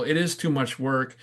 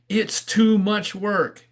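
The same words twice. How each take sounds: First: Said in the usual way. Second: High, slow mock yell; discouraging jeer in a raised pitch; heckling frog's call. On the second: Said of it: "what the other frogs are yelling".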